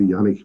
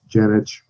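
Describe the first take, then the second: First: The name is said in the traditional Serbian way. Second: The name is said in the usual anglicized way. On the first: This is the family's original pronunciation. "would be the the traditional pronunciation" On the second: This is how most people say it. "usually it just comes off as as Janich"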